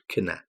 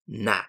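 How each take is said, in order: First: It begins with a k sound before n. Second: It begins with an n sound, no k. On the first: The speaker calls it wrong. "not kna" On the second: The speaker calls it right. "the K is silent"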